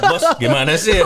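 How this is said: It is said in a tough, macho voice.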